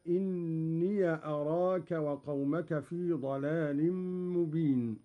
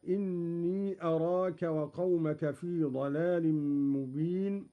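First: "إني" said inniya before "أراك"; voweled possessive yaa. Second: Said in the usual way. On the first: Shown as a demonstration. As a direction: end "إني" in a short -ya. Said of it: "قرأ قالون بفتح ياء الإضافة". (فتح ياء الإضافة في "إني") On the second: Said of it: "بفتح ياء الإضافة".

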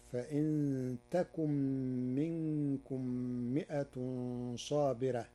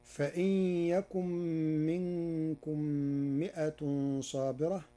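First: "تكن" said takun, with initial t; "تكن" as ta-kun in measured recitation; feminine ta. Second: "يكن" said yakun, with initial y; "يكن" as ya-kun, nasal held before the y; reading with ya. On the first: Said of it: "بتاء التأنيث،". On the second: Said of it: "قرأ ورش كلمة يكن". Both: Shown as a demonstration.

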